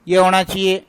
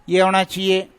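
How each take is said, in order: The two takes are said the same way.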